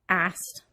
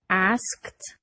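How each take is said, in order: First: A consonant in the final cluster is dropped. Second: Every consonant in the final cluster is pronounced.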